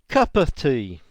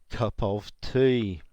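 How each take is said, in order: First: The word 'of' is reduced to 'uh'. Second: The word 'of' is said in full.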